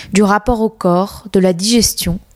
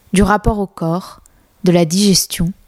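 Both takes have the same delivery.

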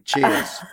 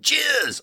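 First: It is said in his normal natural voice. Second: It is said in a put-on character voice.

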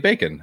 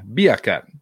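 First: It is said in the speaker's ordinary accent. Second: It is said in an imitated Jamaican accent.

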